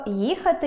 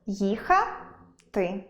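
First: Їхати broken as ї — хати; їхати split after the first sound; wrong split. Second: Їхати broken as їха — ти; їхати split before the last syllable; correct split. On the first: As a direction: say ї alone, pause, then хати. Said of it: "А чи буде правильно перенести". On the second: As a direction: draw їха upward, pause, drop on ти. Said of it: "перенести лише так". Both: Shown as a demonstration.

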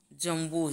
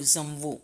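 First: Said in the usual way. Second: જમવું begun with a "z"; j turned into z. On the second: Shown as a demonstration. Teacher showing students the dialect જ, જમવું said "zamvu". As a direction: buzz the first sound of જમવું, "zamvu". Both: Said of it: "જનો જ".

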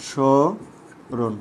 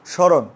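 First: স্মরণ very slowly, sho ... ron; syllable by syllable. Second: Said in the usual way. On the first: Shown as a demonstration. Teacher breaking it down for students, স্মরণ in slow separated syllables. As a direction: stretch the first syllable of স্মরণ, then pause. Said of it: "একটু লক্ষ্য করো তো". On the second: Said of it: "একটু লক্ষ্য করো".

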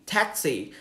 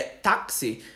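First: "taxi." with an American flat a, TAK-see. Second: "táxi" in plain Portuguese, TÁK-see. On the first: Teacher to students, giving the American English pronunciation of "taxi.". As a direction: say "taxi." as an American would, short and crisp. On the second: Teacher to students, saying "táxi" first the Portuguese way. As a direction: say "táxi" the Brazilian way, stress on TÁ, ending in an ee sound. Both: Shown as a demonstration. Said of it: "a gente fala taxi".

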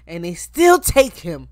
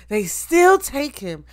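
First: Said in the usual way. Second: Higher, slower repeat with stress on still; moved, insisting they still take him; emphatic. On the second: Real, not acted. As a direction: hammer the word still in disbelief.

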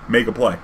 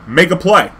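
First: Said in the usual way. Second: Louder, clipped command; curt order. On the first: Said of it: "kept saying the same shit". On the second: Retold or imitated. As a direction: snap it like an impatient judge. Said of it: "he's like".

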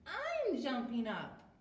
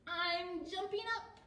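First: Lightly voiced character, loud and slow; Billy's voice. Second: High character call; Fluff's voice. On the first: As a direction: call it slowly, falling at the end. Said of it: "said Billy". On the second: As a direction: pipe it up high. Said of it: "said Fluff". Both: A narrator's reading.

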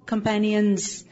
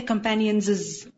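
First: Said in the usual way. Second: "companions" with an extra -iz syllable, companionses; doubled plural. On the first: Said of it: "Sahaba, companions". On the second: Shown as a demonstration. Teacher mocks up the wrong plural for students, "companions" said as companionses. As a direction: stick a second plural ending "iz" onto "companions". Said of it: "So don't say companions".

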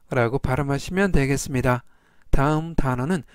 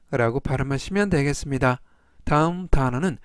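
Both takes have the same delivery.

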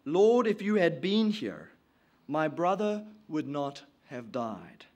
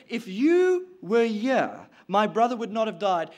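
First: Said in the usual way. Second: Insinuating blame. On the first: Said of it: "Now Martha said to Jesus". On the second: Acted. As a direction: lean on the first words to lay blame. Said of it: "she's insinuating blame".

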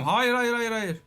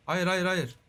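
First: Alarmed no. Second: Said in the usual way. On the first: Real, not acted. Yelling at friend not to eat the dragon egg, alarmed. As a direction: stop him before he eats it.

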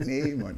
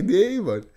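First: Said in the usual way. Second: Higher, louder retold refusal; insistent refusal. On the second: Pupil refuses a pestering classmate, insistent. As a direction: refuse more firmly, pitch jumping up.

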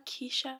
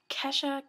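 First: "Keisha" with a long vowel in the first syllable; second name variant. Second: "Kesha" with a short E, as in "mesh"; first name variant. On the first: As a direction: stretch the first vowel of "Keisha", unlike "Kesha". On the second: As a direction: say "Kesha" as KESH-uh. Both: Shown as a demonstration. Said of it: "Either way, those names".

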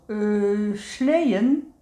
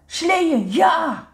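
First: Drawn-out, questioning "sleeën" on waking; half-awake, hesitant query; sleepy mumble. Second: High, loud burst of delight; excited shout. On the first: Woezel opens one sleepy eye at the mention of sledding, sleepy mumble. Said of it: "mompelt hij". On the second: Woezel's eyes shoot open at the idea of sledding, excited shout. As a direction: cheer it out, suddenly wide awake. Suddenly wide awake for sledding. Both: A narrator's reading.

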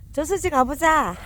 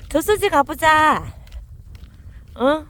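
First: 저수지 가보자 called loud and high, with the weight on a lengthened 가보자; the stress falls on 가보자 this time. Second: 저수지 가보자 drawn out slowly, loud and high, 저수지 weighted most; 저수지 stressed in a slow, loud, high call. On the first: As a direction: push the 가보자 out long. Repeating the call to the dogs. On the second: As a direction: stretch the call out long so the dogs hear. Calling the dogs to the reservoir. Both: Real, not acted.

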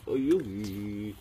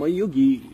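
First: Drawn-out, slow take. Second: Said in the usual way. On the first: Shown as a demonstration. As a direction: stretch each word out slowly. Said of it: "repeated slowly". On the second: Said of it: "repeated differently".

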